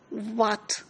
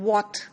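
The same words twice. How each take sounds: First: The first sound is made without rounded lips. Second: The first sound is made with rounded lips. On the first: The speaker calls it wrong. "often heard people saying what" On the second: The speaker calls it right. "you need to round your uh, lips"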